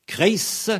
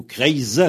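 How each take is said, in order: First: "Kreis" with long hissed s; "Kreis" closed on a sharp s; hard final S. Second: "Kreis" said kreiz, with buzzed z; "Kreis" closed on a voiced ze; soft final Z. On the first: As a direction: say "Kreis" ending voiceless. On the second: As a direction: voice the ending of "Kreis" as z. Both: Shown as a demonstration. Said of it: "ça va se prononcer ze".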